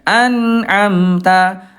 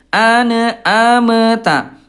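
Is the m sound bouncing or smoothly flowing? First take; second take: flowing; bouncing. First: The m sound flows smoothly with slight airflow. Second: The m sound bounces with an extra release. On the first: The speaker calls it right. "Sedikit mengalir. ... Namanya tawasud" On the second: The speaker calls it wrong. "jangan sampai mantul ... Itu bunda kurang tepat ya"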